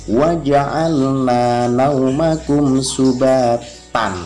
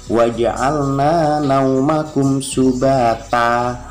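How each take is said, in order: First: The final word ends with an n sound. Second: The final word ends with a lengthened vowel. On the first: The speaker calls it wrong. "bacanya bukan tan" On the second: The speaker calls it right. "dibaca fathah, panjangkan dua dua harokat"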